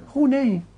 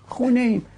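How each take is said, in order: The two takes are said the same way.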